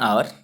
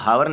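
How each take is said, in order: First: The word begins with a vowel, no h. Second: The word begins with a clear h sound. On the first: The speaker calls it right. "एच का pronunciation नहीं होता है" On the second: The speaker calls it wrong. "इसको हावर नहीं बोलते हैं"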